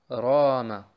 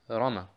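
First: The first vowel is held long. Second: The first vowel is short. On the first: The speaker calls it right. "Der nächste Rama" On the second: The speaker calls it wrong. "und nicht Rama"

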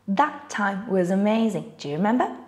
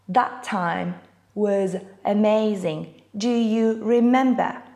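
First: The words are linked together smoothly. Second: Each word is said separately, one by one.

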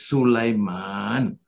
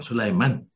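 First: The vowel in the last syllable is long. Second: The vowel in the last syllable is short. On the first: The speaker calls it right. "it is Sulaiman" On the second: The speaker calls it wrong. "this is short vowel man"

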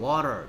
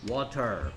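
First: The word is said quickly as one unit. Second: The word is said slowly, sound by sound. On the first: "빠르게 하면 water" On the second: "그래서 다 합쳐서 water"

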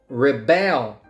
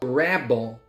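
First: The stress is on the second syllable. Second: The stress is on the first syllable. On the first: It is a verb: to resist authority. "The verb" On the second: It is a noun: a person who resists. "Rebel is a noun"

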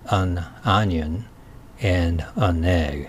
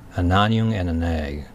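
First: Each word is said separately. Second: The words are run together smoothly. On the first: "意識的にはAn onion and an egg と言います。" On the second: "それをつなげてください。"

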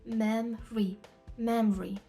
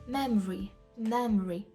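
Both takes have the same delivery.

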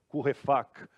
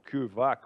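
First: The name is said with a German accent. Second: The name is said with a Portuguese accent.

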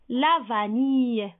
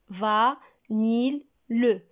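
First: The word is said whole, ending in a y sound. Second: The word is split into syllables with a clear L. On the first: "si je lis le mot entier, je lis I" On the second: "Car j'ai séparé le mot"

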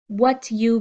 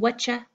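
First: The two words are said fully and separately. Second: The words blend into one reduced word. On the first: "What you becoming whatcha" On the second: "What you becoming whatcha"

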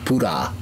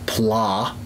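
First: Two syllables with an R-like sound and a vowel. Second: One syllable with an L sound, no vowel break. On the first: This is how Japanese speakers commonly say it. "the way it comes out in their common speech" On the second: This is the English form of the word. "instead of"

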